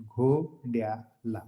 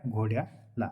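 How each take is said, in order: First: "घोड्याला" drawn out very slowly, part by part; broken into parts. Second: Said in the usual way. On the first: Shown as a demonstration. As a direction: stretch "घोड्याला" out slowly to show the ending. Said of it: "त्याला सामान्य रूप म्हणतात". ("घोड्याला" तुकडे पाडून, अगदी सावकाश) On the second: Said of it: "काय?".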